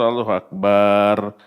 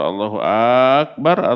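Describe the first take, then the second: First: The final vowel in bar is drawn out. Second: The first vowel of akbar is drawn out. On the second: "A dalam akbar"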